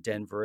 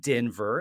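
First: Denver is said in the usual familiar pronunciation. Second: Denver is said in an imitated local pronunciation. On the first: This is how most people know it. "or Denver as we know it" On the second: This is how a Denver native says it. "as she pronounces it"

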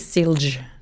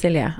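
First: The name is said with an American pronunciation. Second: The name is said with a Norwegian pronunciation. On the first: This is how an American reads the spelling. The speaker calls it wrong. "Amerikanere, hvis du legger Silje stavet på, ... så ville han si Silj" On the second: This is how the name is meant to sound. The speaker calls it right. "hva kan jeg gjøre for at du uttaler det, Silje?"

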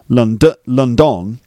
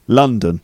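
First: The stress falls on the second syllable. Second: The stress falls on the first syllable. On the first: The speaker calls it wrong. "It's not London" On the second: The speaker calls it right. "No, it's London"

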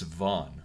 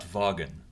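First: The name is said the usual English way. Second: The name is read out in a French-style way. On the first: The speaker calls it right. "it's Vaughan" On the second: The speaker calls it wrong. "not Vaughan. As a francophone looking at maps and writings, I always said Vaughan"

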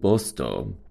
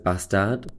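First: The name is said the local Swedish way. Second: The name is said the familiar anglicized way. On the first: This is how locals say the name. The speaker calls it right. "but that's how you say it" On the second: This is how outsiders commonly know the name. The speaker calls it wrong. "which you might know as"

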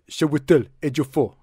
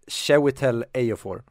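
First: The name is said in an African-style accent. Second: The name is said in a plain accent. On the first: This is how someone matching the name's origin might say it. "kommer från afrikanskt ursprung, så skulle det säkert vara typ" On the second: This is how the speaker thinks it is pronounced. "enligt mig så uttalas han"

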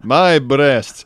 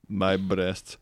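First: It is said loudly. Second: It is said quietly.

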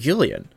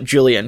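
First: The name begins with a Y sound. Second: The name begins with a J sound. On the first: "in German, the J is pronounced as a Y" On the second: "I can't call him anything but Julian"

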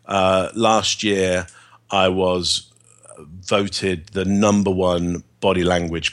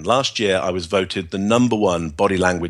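First: The tone sounds unsure and unconvincing. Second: The tone sounds steady and confident. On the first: The claim is not believed. The speaker calls it wrong. "you don't buy that fact because of my tone of voice" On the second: The claim comes across as credible. The speaker calls it right. "my tone of voice has changed immediately. The rhythm has changed immediately"

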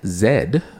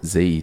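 First: The letter is said the non-American way. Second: The letter is said the American way.

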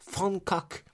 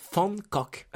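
First: It is said with a Dutch pronunciation. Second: The same.

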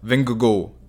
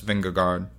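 First: The name is said with a native Danish accent. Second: The name is said with an American English accent.

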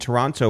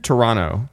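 First: The second T sound is clearly pronounced. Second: The second T sound is dropped. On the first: The speaker calls it wrong. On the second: The speaker calls it right.

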